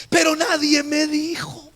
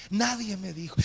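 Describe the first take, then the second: First: High, loud lament to the congregation; emphatic declaration. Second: Soft, dropped-down echo; subdued repetition. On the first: Pastor tells congregation nobody warned him, emphatic. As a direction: throw it out high and forcefully. Stressed statement, then repeated low. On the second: Pastor repeats to himself that nobody warned him, subdued. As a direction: let it sink, quiet and resigned. Same statement repeated low. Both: Real, not acted.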